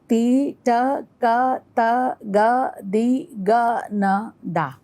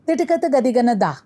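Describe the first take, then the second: First: "ti, ta, ka" slow, every syllable drawn out on its own beat; slow first tempo. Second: "Ti, ta, ka" rattled off rapidly, higher in pitch; quadruple tempo. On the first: Teacher naming the first lay, slow tempo. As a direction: recite one separate syllable per beat. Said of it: "First lay". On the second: Teacher showing double of still that, fastest tempo. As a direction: run all syllables together in one quick burst. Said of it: "next is double of still that". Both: Shown as a demonstration.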